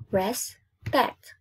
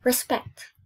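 First: RESPECT split into res, pect; syllable by syllable. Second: Said in the usual way. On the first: Shown as a demonstration. Teacher counting two syllables for pupils, syllable by syllable. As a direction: break "Respect" in two with a gap. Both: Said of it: "Two syllables".

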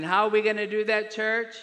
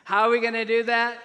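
First: Loud, quick call to the congregation; raised voice prompting a response; preacher's question. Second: Very loud, high call to the congregation; insistent repeated question. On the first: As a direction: toss the question out for the church to answer. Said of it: "I'll ask it again". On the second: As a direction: belt the question so everyone gets it. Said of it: "I'll ask it again so you can get it". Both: Real, not acted.

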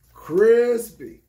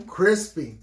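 First: Crispy louder and higher, punched with delight; hyped crispy. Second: Said in the usual way. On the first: Real, not acted. Repeating praise of the shoes to viewers, hyped and loud. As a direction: hype the word crispy up.

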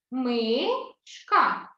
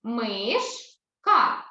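First: "Мишка" broken as МИ, pause, ШКА; syllable split. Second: "Мишка" broken as МИШ, pause, КА; syllable split. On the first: («Мишка» по складах: МИ - ШКА) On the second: («Мишка» по складах: МИШ - КА) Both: Shown as a demonstration. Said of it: "слово мишка поділимо на склади".

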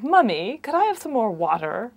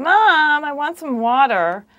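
First: Imitated English-accented toddler whine; mock English child's accent, raised voice; English kid whining. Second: Put-on loud, high American-accented toddler whine; imitated whiny American child. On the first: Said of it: "you have the English kid who's saying". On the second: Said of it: "whining in an American accent".

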